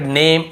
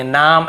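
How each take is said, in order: First: नेम with a long "ay" vowel; long-A pronunciation. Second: नाम with a long "aa" vowel; wrong vowel pronunciation. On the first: Teacher explaining the silent E rule, नेम with "ay". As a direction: say नेम, A by its letter name. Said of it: "ए को ए पढ़ेंगे". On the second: Teacher contrasting readings of the letters, नाम with long "aa". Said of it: "ऐसे ही पढ़". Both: Shown as a demonstration.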